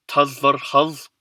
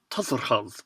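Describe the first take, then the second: First: Tazarhaz stretched out so every vowel is heard; slowly. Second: Tazarhaz whispered with the middle vowels nearly swallowed; Mongolian pronunciation. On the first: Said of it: "especially slowly". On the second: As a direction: say Tazarhaz softly and quickly, as a native would. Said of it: "the vowels like in the word for thanks". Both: Shown as a demonstration.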